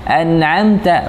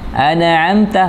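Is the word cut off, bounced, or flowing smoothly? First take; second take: cut off; bounced. First: The sound is cut off abruptly after the consonant. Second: The consonant is stressed with a bouncing echo sound. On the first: "bukan an'amta an'amta, bukan begitu, bukan seperti memutuskan bacaan" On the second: "menegaskan tapi bunyi pantulan... enggak boleh ya"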